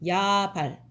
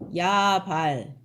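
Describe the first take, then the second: First: The first vowel is long, the second short. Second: Both vowels are held long. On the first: This is the form of the root word. "앞에는 길게 뒤에는 짧게" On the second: This is the form of the personal name. "둘 다 길게"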